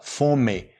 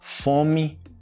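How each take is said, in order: First: The final vowel sounds like 'eh'. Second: The final vowel sounds like 'ee'. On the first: The speaker calls it wrong. "você não vai escutar fome" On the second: The speaker calls it right. "você vai escutar palavras como fome"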